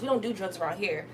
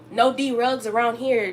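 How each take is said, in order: First: Said in the usual way. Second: "D-rugs" drawn out as "Dee-rugs", the D split off and slowed; spell-stress "D-rugs", slowly hitting the D apart; stress on drugs. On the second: Shown as a demonstration. Scolding a viewer about drugs, splitting off the D in "D-rugs". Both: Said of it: "D R U G".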